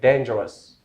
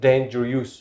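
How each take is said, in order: First: The final syllable has a schwa vowel. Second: The final syllable has a full vowel. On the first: The speaker calls it right. "it gives a kind of schwa sound" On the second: The speaker calls it wrong. "it's not dangerous"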